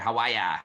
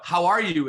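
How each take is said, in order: First: It is said in a Boston accent. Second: It is said in a neutral accent.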